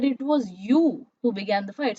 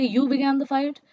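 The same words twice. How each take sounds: First: YOU stretched out and emphasized; single out YOU as the one responsible; special stress on YOU. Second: Said in the usual way. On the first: Shown as a demonstration. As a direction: put extra weight on YOU, then ease off. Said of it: "to put special stress". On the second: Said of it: "I can very easily say".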